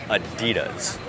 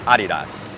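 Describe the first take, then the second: First: The name is said in an American way. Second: The name is said in a German-style way. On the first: "người Mỹ và người Canada lại nói" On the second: "họ đọc nó khá chuẩn theo kiểu tiếng Đức"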